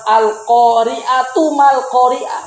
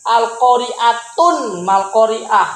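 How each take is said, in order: First: The first word ends in -tu without n. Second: The first word ends in -tun with n. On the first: The speaker calls it right. "dalam Al-Quran al-qari'atu mal-qari'ah" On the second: The speaker calls it wrong. "bukan al-qari'atun mal-qari'ah. Enggak"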